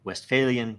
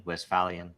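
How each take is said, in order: First: "Westphalian" with a long A, west-FAIL-ian; alternative pronunciation. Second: "Westphalian" with a short A, west-FAL-ian; alternative pronunciation. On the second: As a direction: say "Westphalian" with the vowel of "pal". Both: Shown as a demonstration. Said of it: "First of all, pronunciation".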